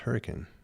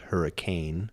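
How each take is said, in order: First: It uses the local pronunciation of the area. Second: It uses the pronunciation common outside the area. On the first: This is how locals say it. The speaker calls it right. "It's pronounced hurricane" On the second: This is how people from outside the area say it. The speaker calls it wrong. "it is not pronounced hurricane"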